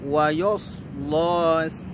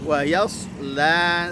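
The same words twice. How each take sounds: First: The ya is heavy, with a darkened vowel. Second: The ya is light, with a clear vowel. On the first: The speaker calls it wrong. "Jangan sampai terbaca seperti ini" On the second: The speaker calls it right. "ya huruf tipis"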